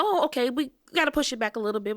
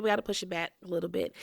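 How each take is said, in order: First: Fast, brightly higher delay excuse; quick upbeat "push it back"; breezy staff voice. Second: Fast, softer echo of the excuse; deflated repeat. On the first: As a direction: rattle it off cheerfully. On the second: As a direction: repeat it quickly under the breath. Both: Retold or imitated. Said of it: "they go".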